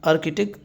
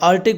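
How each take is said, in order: First: The middle k sound is clearly pronounced. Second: The middle k sound is left out. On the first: It is said this way to reflect the spelling. "वैसे मैं आर्किटिक पढ़ रहा हूँ spelling के लिए" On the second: This is how it is usually said. "वैसे आर्टिक पढ़ते हैं, ये दरमियान वाला सी साइलेंट होता है"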